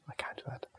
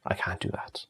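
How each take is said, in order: First: Barely audible whisper, fading to nothing; the second refusal trails off into a faint breath. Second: Whispered refusal, breathy and low; muttering I can't do that almost to himself. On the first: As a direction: let the repeat die away in a whisper. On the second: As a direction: breathe the words out under your breath. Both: Real, not acted.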